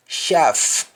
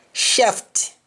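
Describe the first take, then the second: First: "shaft" said as shaf, the final t dropped; Jamaican, no final t. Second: Said in the usual way. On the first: Shown as a demonstration. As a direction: drop the t at the end of "shaft". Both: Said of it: "You don't pronounce the T at the end".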